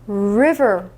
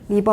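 First: It starts with a curled English R sound. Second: It starts with a Korean-style flapped consonant. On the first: The speaker calls it right. "R 발음 제대로 해줘보세요" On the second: The speaker calls it wrong. "리버 아니에요"

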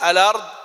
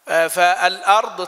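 First: The glottal stop is dropped, its vowel moved back. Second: The glottal stop after the article is pronounced. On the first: "النقل يكون في كلمتين" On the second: "فالأرض تصير إيه؟"

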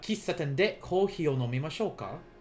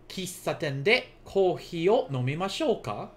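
First: It is said quickly. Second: It is said at a moderate, connected pace.

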